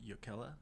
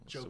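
First: The name begins with a Y sound. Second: The name begins with a J sound. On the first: This is the older family pronunciation. "That's actually the traditional pronunciation" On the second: This is the Americanized pronunciation used now. "it's just Jokela now"

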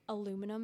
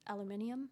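First: The word is said the American way. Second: The word is said the British way.

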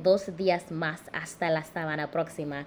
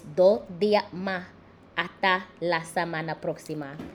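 First: Every S sound is clearly pronounced. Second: Most S sounds are dropped from the words. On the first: This is the standard way of speaking. "Instead of saying" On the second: This is how people speak in the Caribbean. "the S and dos, the S and yes, the S and mas, the S and nasta just was like deuces"

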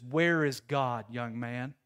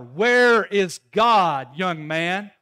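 First: The question is said at a moderate volume. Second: The question is said in a raised, louder voice.

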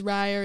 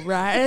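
First: The name is said in a plain speaking voice. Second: The name is acted out like a flamboyant lion.

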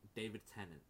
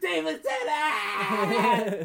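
First: The name is said at normal, calm volume. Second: The name is screamed loudly and excitedly.

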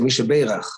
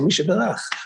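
First: It is said with an Ashkenazi accent. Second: It is said with a modern Israeli accent.

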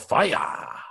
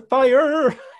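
First: The final R is soft and barely curled. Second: The final R is a strong curled American R. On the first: The speaker calls it right. "In metal, we go" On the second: The speaker calls it wrong. "It sounds more like pop or musical theater"

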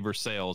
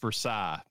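First: It is said with an anglicized local pronunciation. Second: It is said with the French pronunciation. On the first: This is the name of the town in Kentucky. "but we say Versailles, and that's what we call it" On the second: This is the name of the place in France. "in Paris, France, it's Versailles"

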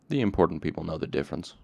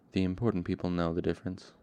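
First: It is said plainly, without weariness. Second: It is said wearily, without conviction.

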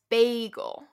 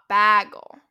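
First: The first vowel sounds like 'bay'. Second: The first vowel is more open, not 'bay'. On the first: The speaker calls it right. "say it as if it was B-A-Y" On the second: The speaker calls it wrong. "not bagel"

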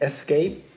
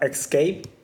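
First: The word starts with an es sound. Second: The word starts with an ex sound. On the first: The speaker calls it right. "but it's actually escape" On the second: The speaker calls it wrong. "You have escape"

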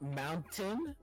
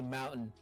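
First: The middle T sound is clearly pronounced. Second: The middle T sound is dropped. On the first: "instead of mountain" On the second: "we don't say their T's"

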